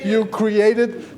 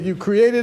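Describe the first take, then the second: First: The phrase is said slowly and deliberately. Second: The phrase is said at a normal pace.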